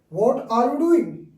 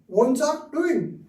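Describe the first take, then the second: First: Each word is said fully and separately. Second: The words are reduced and run together. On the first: "This is full form" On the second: "But you speak wants are doing"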